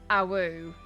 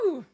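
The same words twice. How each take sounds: First: The howl sounds flat and annoyed. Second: The howl sounds big and excited.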